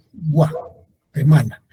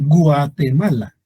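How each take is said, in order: First: "Guatemala" slowly, with "Gua" as one syllable; fuse U and A in "Guatemala"; diphthong demo. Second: "Guatemala" with U and A pulled apart, Gu-a; wrong split vowels. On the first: Teacher showing two vowels fused, correct diphthong in "Guatemala". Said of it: "se pronuncian como una sola". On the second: Teacher showing what we don't say, "Guatemala" wrongly split. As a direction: break the diphthong in "Guatemala" into two syllables. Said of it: "No decimos Guatemala". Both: Shown as a demonstration.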